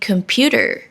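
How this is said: It is said in an American accent. "like American pronounce it"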